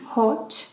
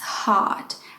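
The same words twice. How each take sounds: First: The vowel is a rounded 'oh' sound. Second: The vowel is a long open 'ah' sound. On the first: The speaker calls it wrong. "It's not hot" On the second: The speaker calls it right. "with a long ah"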